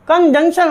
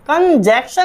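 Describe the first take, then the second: First: The second part sounds like 'junction' with a nasal. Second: The second part sounds like 'jaction' without the nasal. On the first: The speaker calls it right. "तो जंक्शन होता है" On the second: The speaker calls it wrong. "कंजैक्शन नहीं होता"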